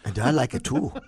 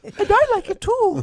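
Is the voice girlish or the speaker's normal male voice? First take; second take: male; girlish. First: It is said in the speaker's normal male voice. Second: It is said in a higher, girlish voice. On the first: "can you do the Irish accent, [name]?" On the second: "try it again As a girl's voice"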